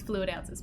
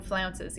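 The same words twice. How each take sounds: First: Said in the usual way. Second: Flounces, said as one blended word; cute mispronunciation. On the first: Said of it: "not flounces". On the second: Shown as a demonstration. Streamer playfully says flounces for fluid ounces. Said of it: "I love to call them flounces".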